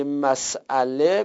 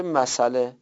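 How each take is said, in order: First: مسئله broken as "mas-'ale"; مسئله in its full form, hamza sounded; hamza pronounced. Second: مسئله run together as "ma-sale"; مسئله in the eased form, s gliding into the vowel; hamza dropped. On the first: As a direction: say مسئله with a glottal stop after the s. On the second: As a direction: say مسئله with no glottal stop after the s. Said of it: "اینجا همزه رو دیگه نمیگید". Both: Shown as a demonstration.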